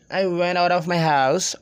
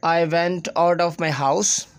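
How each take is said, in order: First: Connected, native-style English; native English linking. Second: Word-by-word Pakistani English; unlinked words in a Pakistani English accent. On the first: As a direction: run the words together like a native English speaker. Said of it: "sounds like native English speakers". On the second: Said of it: "as being Pakistani, we will say". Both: Shown as a demonstration.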